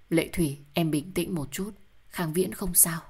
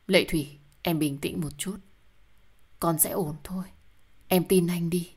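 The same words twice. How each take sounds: First: Said in the usual way. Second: Hushed, tender reassurance; soothing whisper. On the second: A narrator's reading. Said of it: "an ủi cô". (thì thầm vỗ về vợ)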